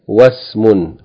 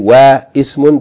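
First: Wa joins directly to s without the vowel. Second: The i vowel after wa is pronounced separately. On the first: The speaker calls it right. "but you say Wasmun" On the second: The speaker calls it wrong. "you don't say Wa Ismun"

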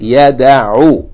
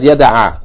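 First: The word is said with a dhamma vowel. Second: The word is said with a fatha vowel. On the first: The speaker calls it right. "It should be yada'u. Yani mudari with dhamma" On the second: The speaker calls it wrong. "In the book it has yada'a with fatha"

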